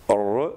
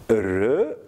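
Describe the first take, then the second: First: "R" drawn out as an emphatic phoneme. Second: Said in the usual way. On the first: Shown as a demonstration. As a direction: say "R" as the emphatic consonant, slowly. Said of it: "c'est-à-dire le phonème emphatique ici". (« R » emphatique, prononcé lentement) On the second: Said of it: "R, l'emphase".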